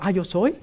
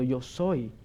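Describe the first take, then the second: First: "Ah, yo soy" tossed off with a rise at the end; "Ah, yo soy" lilting upward on "soy"; casual misreading. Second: "Yo soy" low and soft, settling downward; "Yo soy" hushed and final, no upward lilt; solemn declaration. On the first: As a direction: say "Ah, yo soy" lightly, as a mistaken reading. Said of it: "que yo estoy diciendo". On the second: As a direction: state "Yo soy" gravely, as a finished statement. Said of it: "No, está diciendo". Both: Shown as a demonstration.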